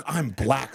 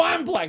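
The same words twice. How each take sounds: First: Said in the usual way. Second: Retold indignant retort. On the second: Answering attacker's same claim, high indignant insistence. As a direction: claim it back in comic disbelief.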